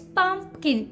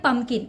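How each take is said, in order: First: The middle P sound is clearly heard. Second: The middle P sound is dropped. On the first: The speaker calls it right. "You have to make that P sound there" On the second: The speaker calls it wrong. "Don't call it"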